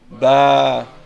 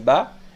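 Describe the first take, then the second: First: The vowel is long and prolonged. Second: The vowel is short. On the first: "Et avec le alif, ça fait ba" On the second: "le ba avec fatha, ça fait ba"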